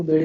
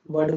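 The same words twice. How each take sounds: First: बेड़ with a front "e" vowel; wrong pronunciation. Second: वर्ड with a neutral "uh" vowel; correct pronunciation. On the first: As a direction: say बेड़ with "e" in place of "uh". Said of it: "बेड़ नहीं बोलते". (बेड़ में "ए" की आवाज़) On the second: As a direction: say वर्ड as "wurd". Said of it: "वर्ड को बेड़ नहीं बोलते". (वर्ड में "अ" की आवाज़) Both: Shown as a demonstration.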